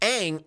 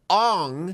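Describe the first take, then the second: First: The vowel sounds like the one in 'cat'. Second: The vowel sounds like the one in 'song'. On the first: The speaker calls it right. "Aang's name pronunciation correct" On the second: The speaker calls it wrong. "as M. Night wants to say, Ong"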